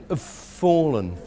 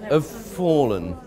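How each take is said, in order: No difference in how they are said.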